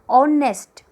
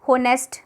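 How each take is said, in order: First: The word begins with a vowel sound. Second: The word begins with an h sound. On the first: It is the standard way of saying it. The speaker calls it right. "लेकिन नहीं, यहाँ पर ये होगा ऑनेस्ट" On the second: It is the local-language way of saying it. The speaker calls it wrong. "हम लोग normally बोल देते हैं अपनी लोकल लैंग्वेज में"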